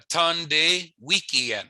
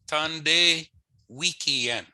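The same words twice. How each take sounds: First: Tande Wikien drawn out very slowly; slow Michif model. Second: Tande Wikien at normal speed; normal-pace repeat. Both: Shown as a demonstration. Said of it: "how you would ask that is".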